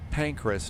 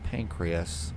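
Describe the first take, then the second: First: The name is said with two syllables. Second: The name is said with three syllables. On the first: The speaker calls it right. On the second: The speaker calls it wrong. "not Pancreas"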